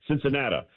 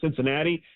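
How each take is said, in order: First: It is said with an old-fashioned regional pronunciation. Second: It is said with an ordinary standard pronunciation. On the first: This is how the older man said it. "As his grandfather used to pronounce it" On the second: This is not how the older man said it. "It's not Cincinnati"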